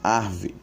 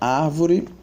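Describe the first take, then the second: First: The word is shortened by dropping sounds inside. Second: The word is pronounced with all three syllables. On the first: "sendo pronunciada muitas vezes como arve" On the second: "Temos a palavra árvore"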